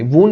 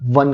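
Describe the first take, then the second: First: The vowel sounds like the one in 'own'. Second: The vowel sounds like the one in 'sun'. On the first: The speaker calls it wrong. "वोन नहीं कहना" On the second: The speaker calls it right. "वन कहना है"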